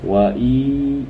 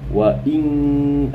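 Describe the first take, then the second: First: The final nasal is dropped with no hum. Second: The final nasal is held with a nasal hum. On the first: The speaker calls it wrong. "kalau saya sebut wa i ah itu salah" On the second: The speaker calls it right. "dia punya dengung"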